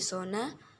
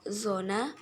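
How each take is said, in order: First: The word begins with an s sound. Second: The word begins with a z sound. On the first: "fonem Z diganti menjadi fonem S" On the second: "fonem Z diganti menjadi fonem S"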